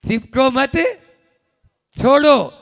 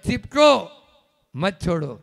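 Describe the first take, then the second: First: The pause comes after the word mat. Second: The pause comes after the word chipko. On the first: Do not cling; let go. The speaker calls it right. "पहले था चिपको मत, छोड़ो, मोक्ष मार्ग" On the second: Cling and do not let go. The speaker calls it wrong. "और चिपको मत छोड़ो, संसार मार्ग"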